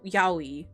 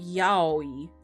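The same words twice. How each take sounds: First: The syllables are short and run together. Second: The syllables are longer and evenly drawn out. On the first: The speaker calls it wrong. "it's not pronounced like we say" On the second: The speaker calls it right. "It's like a longer drawn out kind of thing"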